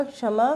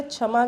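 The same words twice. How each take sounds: First: क्षमा said correctly with क्ष, a क joined to श; correct ksha sound. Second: क्षमा said wrongly as छमा, with a छ at the start; wrong chha sound. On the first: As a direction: say क्षमा with a clear क्ष at the start. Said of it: "यहाँ पे क्षा होगा". (क्षमा में सही क्ष का उच्चारण) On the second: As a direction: show the mistake by saying क्षमा as छमा. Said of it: "गलत है". (क्षमा को गलत ढंग से छमा बोलना) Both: Shown as a demonstration.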